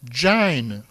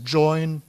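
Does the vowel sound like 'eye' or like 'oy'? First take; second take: eye; oy. First: The vowel is an 'eye' sound. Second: The vowel is an 'oy' sound. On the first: This is the creole and older British pronunciation. "is pronounced in most English-based creoles ... as jine, rhyming with line" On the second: This is the current standard pronunciation. "not as join"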